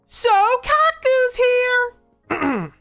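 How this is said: It is said in a put-on character voice.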